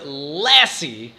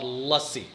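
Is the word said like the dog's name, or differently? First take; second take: dog's name; differently. First: It sounds like the dog's name Lassie. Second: It does not sound like the dog's name. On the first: "actually say the word lassie like the dog" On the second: "an Indian drink called lassi"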